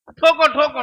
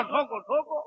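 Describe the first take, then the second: First: Said in the usual way. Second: ठोको ठोको said again much softer; softer repeat. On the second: Real, not acted. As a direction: let the second ठोको ठोको drop away quietly. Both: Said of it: "जितना ठोका ठोकी करना ठोको".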